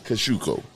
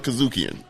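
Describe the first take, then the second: First: The name ends without an n sound. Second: The name ends with an n sound. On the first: The speaker calls it right. "There's no end. ... I'll never forget it" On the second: The speaker calls it wrong. "I'm sorry for calling it Kazukian"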